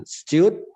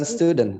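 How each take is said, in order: First: "Student" as "styud-n", louder and higher; held-back ending. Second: Said in the usual way. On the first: Shown as a demonstration. Teacher correcting students, "Student" with held ending. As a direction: punch "Student", stopping before the final n. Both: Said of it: "Bukan student".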